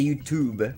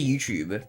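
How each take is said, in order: First: The t in 'tube' is a clear t. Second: The t in 'tube' sounds like ch. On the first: This is how Americans say it. "in America, I think people say YouTube. Like, they say the T as it's, like a T" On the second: This is how the speaker's own accent says it. "I say YouTube"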